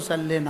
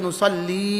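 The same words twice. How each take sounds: First: The final vowel is short, not drawn out. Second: The final vowel is drawn out long. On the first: The speaker calls it wrong. "এই শব্দ নুসাল্লি না" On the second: The speaker calls it right. "টান দিতে হবে এক আলিফ"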